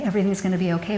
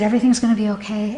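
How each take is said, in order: First: Much softer, hushed comfort; soft reassurance. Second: Quick, comforting reassurance; reassuring. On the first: Mother hushing her frightened little girls, softer. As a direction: let it sink to a hush. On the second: Mother reassuring her frightened little girls, fast. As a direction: hurry to soothe the kids. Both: Retold or imitated. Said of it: "I was sobbing".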